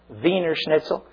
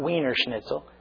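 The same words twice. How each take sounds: First: Wiener begins with a V sound. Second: Wiener begins with a W sound. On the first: The speaker calls it right. "it's a German W" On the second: The speaker calls it wrong.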